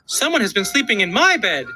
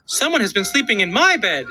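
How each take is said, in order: First: It is said in a middle-sized voice. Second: It is said in a middle-sized voice.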